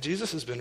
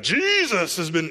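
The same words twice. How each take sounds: First: It is said in a relaxed, ordinary manner. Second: It is said in a strange, overdone manner. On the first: The speaker is simply giving credit naturally. The speaker calls it right. "Just, yeah" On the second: The speaker is being weird about faith. The speaker calls it wrong. "You don't have to be weird about it"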